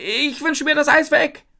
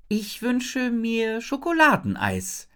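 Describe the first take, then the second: First: High, loud, desperate shout; screaming. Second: Solemn. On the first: Isabel wishes the ice mountain away, screaming. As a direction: yell the wish out urgently. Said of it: "schreie ich". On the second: Isabel makes her wish to Jin, solemnly. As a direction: intone it like a ceremonial wish. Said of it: "sage ich feierlich". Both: A narrator's reading.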